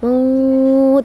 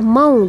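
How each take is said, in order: First: The vowel is drawn out long before stopping. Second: The vowel is said softly and kept short. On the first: The reading stops on this word. "Tapi kalau berhenti dia maut. ... Panjang jadi maut" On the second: The reading continues without stopping. "lembut aja mau gitu ya. Jangan dipanjangkan"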